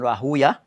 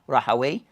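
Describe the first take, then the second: First: The name ends with an 'oo-ya' sound. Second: The name ends with a 'way' sound. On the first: This is how hadith scholars say the name. "the ulama of Hadith pronounce it as Rahuya" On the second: This is how language scholars say the name. "that's what the ulama of Lugha pronounce it as Rahaway"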